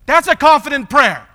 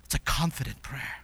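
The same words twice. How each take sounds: First: High, loud proclamation; emphatic declaration. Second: Low, near-whispered reflection; hushed affirmation. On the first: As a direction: proclaim it forcefully from the pulpit. Emphatic declaration after the prayer. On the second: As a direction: say it softly, almost under the breath. Hushed repeat of earlier proclamation. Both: Real, not acted.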